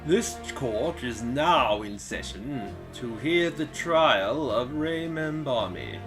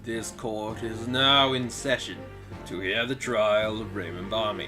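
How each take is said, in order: First: The voice is pitched higher, not deep. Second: The voice is pitched noticeably deeper. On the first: The speaker calls it wrong. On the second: The speaker calls it right. "he's gotta have a deeper voice"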